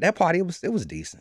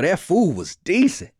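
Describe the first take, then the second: First: Decent sounds unimpressed, meaning only okay. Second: Decent sounds enthusiastic, meaning really great.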